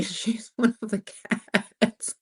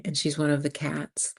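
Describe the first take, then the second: First: Reading through laughter; real laughter. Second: Said in the usual way. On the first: Real, not acted. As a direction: crack up while slowly getting the words out. Cracks up reading a comment.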